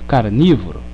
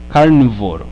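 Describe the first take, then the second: First: The word is said with the I vowel. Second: The word is said without the I vowel. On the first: The speaker calls it right. "botaram o i ali" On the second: The speaker calls it wrong. "Se eu não tivesse o i, seria carnívoro"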